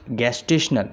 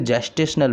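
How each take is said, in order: First: The word begins with a hard G sound. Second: The word begins with a J sound.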